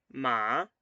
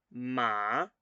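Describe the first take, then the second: The two takes are said the same way.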